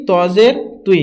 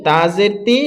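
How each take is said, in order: First: তজের তুই with a heavy, rounded t; thick t. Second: তাজের তি with a light, thin t. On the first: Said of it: "কারণ এটা হচ্ছে ত". (মোটা আওয়াজে তজের তুই) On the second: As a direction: keep তি light, no rounding. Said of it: "তজের তি হবে না". (পাতলা আওয়াজে তাজের তি) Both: Shown as a demonstration.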